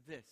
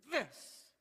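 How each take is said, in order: First: A calm, softened THIS; smooth, easy THIS. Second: THIS jumping high and loud; a spiking, squawked THIS; tense, jolted THIS. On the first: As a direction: let THIS settle gently downward. Shows smooth reaction, the contrast. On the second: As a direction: make THIS a sharp, high jolt. Shows tense reaction versus smooth one. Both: Shown as a demonstration.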